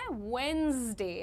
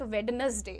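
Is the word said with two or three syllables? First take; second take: two; three. First: The word is said in two syllables. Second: The word is said in three syllables. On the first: The speaker calls it right. "बुधवार को अंग्रेजी में कहते हैं वेंसडे" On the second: The speaker calls it wrong. "Not वेडनेसडे"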